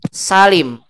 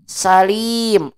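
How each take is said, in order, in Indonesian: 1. Vokal 'i' diucapkan pendek. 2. Vokal 'i' diucapkan panjang. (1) "Umat ganti pendek" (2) "Orang yang selamat"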